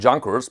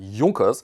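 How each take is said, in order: First: The name is said the American way. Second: The name is said the German way. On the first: This is how people assumed it is said. The speaker calls it wrong. "people thought it, it's called Junkers" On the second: This is how the name is really said. The speaker calls it right. "the correct pronunciation is Junkers"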